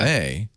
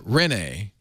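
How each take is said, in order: First: The stress is on the second syllable. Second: The stress is on the first syllable. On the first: "I'm saying it with the accent on the nay, not the ren" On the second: "Not Rene"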